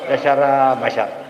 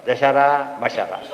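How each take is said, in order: No difference in how they are said.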